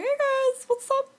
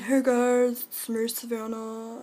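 First: Much higher, squeaky hey guys. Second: Said in the usual way. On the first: Acted. Showing the silly voice she uses with friends, high and squeaky. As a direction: pitch way up into a cartoon squeak. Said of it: "and I have that voice". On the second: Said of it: "Be like".

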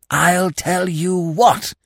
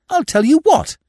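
First: Slow, hoarse conspiratorial whisper. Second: Loud, high burst of excitement; excited exclamation. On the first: A narrator's reading. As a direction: rasp it under the breath. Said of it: "repeated Freddy in a hoarse whisper". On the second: Acted. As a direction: blurt the idea out loud. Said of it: "Not so loud".

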